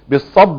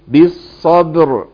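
First: The word ends without any r sound. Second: The word ends with a clear r sound. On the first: The speaker calls it wrong. "لازم الراء تبان. بالصب، ايه الصب ده؟ ينفع؟ لا" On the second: The speaker calls it right. "يبقى ايه؟ بالصبر"

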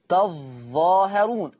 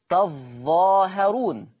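The two takes are said the same way.

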